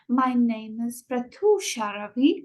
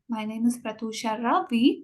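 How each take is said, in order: First: The word name is stretched out. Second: The word Ravi is stretched out.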